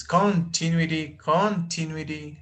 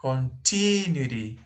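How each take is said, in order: First: CON in "continuity" hit harder; stress on first syllable. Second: TI in "Continuity" stretched and raised; stress on second syllable. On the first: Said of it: "Where is the stress syllable?". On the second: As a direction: lean on con-TI-nuity, then fall. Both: Shown as a demonstration.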